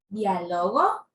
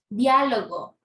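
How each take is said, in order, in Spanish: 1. El acento está en la sílaba del medio. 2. El acento está en la primera sílaba.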